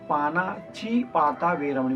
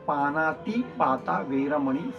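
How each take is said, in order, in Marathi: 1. पहिल्या शब्दात 'ch' ध्वनी आहे, panachi. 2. पहिल्या शब्दात 't' ध्वनी आहे, panati. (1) "च चा उच्चार केला जातो" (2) "त्याचा उच्चार आहे"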